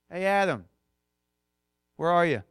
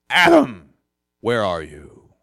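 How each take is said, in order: First: It is called in a relaxed, friendly voice. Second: It is called in a stern, cartoonish voice.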